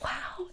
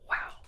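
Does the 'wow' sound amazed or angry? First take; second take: amazed; angry. First: It sounds delighted and amazed. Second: It sounds angry and fed up. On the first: The news is wonderful. "I gotta raise, wow, that's amazing" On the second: The situation is unbelievable in the worst way. "She's not amazed. She is pissed"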